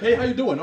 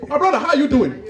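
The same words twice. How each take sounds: First: Put-on light, friendly American accent; casual American small-talk voice; American greeting. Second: Put-on higher-pitched African accent greeting. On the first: Two Americans trade nice things, breezy American accent. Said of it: "for example, in America". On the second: Two Africans meet after a while, hearty African accent. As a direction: greet a long-lost friend in an African accent. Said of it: "Two Africans that haven't seen each other".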